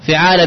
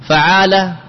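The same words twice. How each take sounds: First: فعالة said fi-ʕala, first vowel i; فعالة with a short i after the f; with kasra. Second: فعالة said fa-ʕala, first vowel a; with fatha. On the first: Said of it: "بالكسر". (فعالة بكسر الفاء: فِعالة) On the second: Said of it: "بالفتح". (فعالة بفتح الفاء: فَعالة) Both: Shown as a demonstration.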